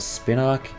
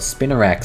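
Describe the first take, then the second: First: The name is said with two syllables. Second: The name is said with three syllables. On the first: The speaker calls it wrong. "I don't know why I've always called it Spinark" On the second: The speaker calls it right. "It's Spinarak"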